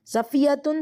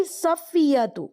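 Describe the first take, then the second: First: صفیتن with a nunation ending -tun; wrong ending. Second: صفیتو ending in a single -tu; slow, careful صفیتو closing on -tu; correct ending. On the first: Teacher demonstrating the wrong ending صفیتن with -tun. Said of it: "غلط پڑھا ہے". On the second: Teacher modelling the correct ending صفیتو with -tu. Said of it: "آپ کیا کہیں گی؟". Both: Shown as a demonstration.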